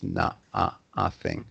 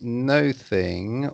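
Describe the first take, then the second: First: The first vowel sounds like 'uh'. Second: The first vowel sounds like 'oh'. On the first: The speaker calls it right. "So always the O pronounced like a U" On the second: The speaker calls it wrong. "you don't say no thing, although it's written no thing"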